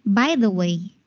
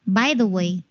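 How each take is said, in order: No difference in how they are said.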